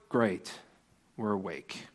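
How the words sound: It sounds like a reluctant groan.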